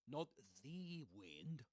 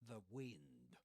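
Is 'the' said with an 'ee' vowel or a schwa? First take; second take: ee vowel; schwa. First: The word 'the' has a full 'ee' vowel. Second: The word 'the' has a weak schwa vowel. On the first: The speaker calls it wrong. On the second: The speaker calls it right. "the wind with a schwa"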